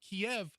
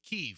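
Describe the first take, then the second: First: The city name is said the Russian way. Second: The city name is said the Ukrainian way. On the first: "Kiev was how the Russians pronounced the name of the city" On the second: "in the Ukrainian language, the city is pronounced Kyiv"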